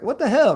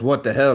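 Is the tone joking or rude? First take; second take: joking; rude. First: It sounds playful and joking. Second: It sounds harsh and rude.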